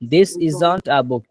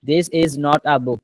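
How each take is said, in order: First: Is not is shortened into one word. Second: Is not is said as two full words.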